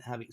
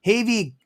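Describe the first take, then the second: First: Javi said with the Spanish throaty H, like Hah-vee; corrected name. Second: Havy said with a hard English H, like heavy; name read as Havy, breathy H at the start; misread name. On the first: Correcting the viewer's name with an apology, throaty H. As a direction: Javi fixed, soft raspy start in place of Havy. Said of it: "my Canadian accent". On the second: Misreading the viewer's name while shouting him out, H sound. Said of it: "Javi, sorry". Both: Real, not acted.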